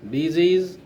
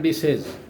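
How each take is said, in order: First: "Disease" with a long ee and z sound, dih-ZEEZ; correct pronunciation. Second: "disease" wrongly said with short e, dee-SEZ; mispronunciation demo. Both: Shown as a demonstration. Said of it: "it is not disease".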